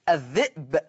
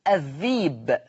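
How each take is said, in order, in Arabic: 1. الكلمة فيها همزة في النص. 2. الكلمة فيها حركة 'ee' طويلة بدلها. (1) "الذئب تبدل ياء" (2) "تبدل ياء فتصير الذيب"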